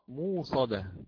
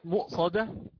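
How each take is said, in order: First: The glottal stop is replaced by a long vowel. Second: A glottal stop is pronounced after the first vowel.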